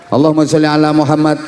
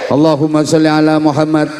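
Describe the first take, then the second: Both takes have the same delivery.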